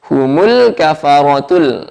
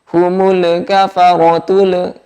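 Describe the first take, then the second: First: The L sounds are held with no bounce. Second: The L sounds are released with a bounce. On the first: The speaker calls it right. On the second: The speaker calls it wrong.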